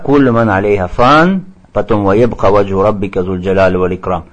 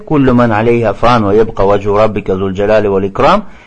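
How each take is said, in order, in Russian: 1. Аят делится остановкой после 'фан'. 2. Аят читается без остановки. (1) "Не так" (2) "не останавливайся, а читай вместе"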